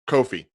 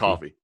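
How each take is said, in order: First: The first vowel sounds like the 'o' in Coco. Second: The first vowel sounds like the 'o' in coffee. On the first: The speaker calls it right. "Kofi, not" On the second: The speaker calls it wrong. "not coffee"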